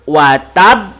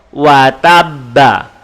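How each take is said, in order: First: The word stops on a bouncing final b. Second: The word ends with a full final vowel. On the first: The reading stops at this word. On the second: The reading continues without stopping.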